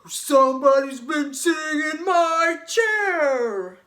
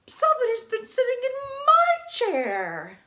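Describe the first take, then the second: First: It is said in a great big voice. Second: It is said in a smaller, lighter voice.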